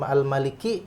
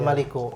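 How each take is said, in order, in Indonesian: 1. Kata ini berakhir dengan vokal 'i' pendek. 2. Kata ini berakhir dengan vokal 'u' pendek. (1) "seharusnya kasroh" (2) "dhammah kan"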